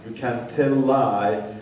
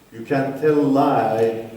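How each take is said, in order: Both takes have the same delivery.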